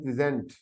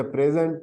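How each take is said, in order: First: प्रेजेंट as pri-ZENT, stress on the second syllable; प्रेजेंट pronounced pri-ZENT, meaning to present; present, the verb. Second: प्रेजेंट stressed on the first syllable, PREZ-ent; प्रेजेंट pronounced like a gift; present, the noun. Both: Shown as a demonstration. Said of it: "दूसरे को अगर हम पढ़ें प्रेजेंट".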